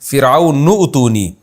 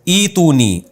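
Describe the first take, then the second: First: The word joins the previous word, initial vowel dropped. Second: The word starts with its own initial vowel.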